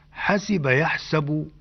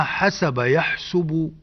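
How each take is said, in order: First: حسب يحسب said hasiba yahsabu, kasra on the sin in حسب, fatha on the sin in يحسب; حسب يحسب as hasiba yahsabu, spelling out the vowel on the sin. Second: حسب يحسب said hasaba yahsubu, fatha on the sin in حسب, damma on the sin in يحسب; حسب يحسب as hasaba yahsubu, leaning on أما before it. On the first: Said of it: "بكسر السين في الماضي وفتحها في المضارع". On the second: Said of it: "بفتح السين في الماضي وضمها في المضارع". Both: Shown as a demonstration.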